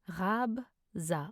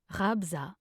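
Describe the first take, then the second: First: Slow, split into two syllables. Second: Said in the usual way. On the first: Shown as a demonstration. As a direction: leave a gap between syllables. Pronunciation guide, broken-down take.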